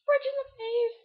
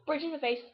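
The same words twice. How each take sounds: First: Shouted. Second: Said in the usual way. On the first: Pretend.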